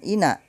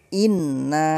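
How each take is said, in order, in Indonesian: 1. Bunyi n pendek dan tunggal. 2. Bunyi n rangkap dan ditahan lebih lama. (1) "bukan ina" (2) "inna ditekan karena bertasdid"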